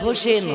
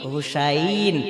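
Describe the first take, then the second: First: The name is said as Hosen, with 'o'. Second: The name is said as Husain, with 'u'. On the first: The speaker calls it wrong. "আমরা বলি" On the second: The speaker calls it right. "হবে কি হুসাইন"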